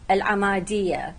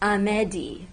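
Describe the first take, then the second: First: The name is said in its Arabic form. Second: The name is said in official Kurdish form. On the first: "In Arabic" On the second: "In official Kurdish"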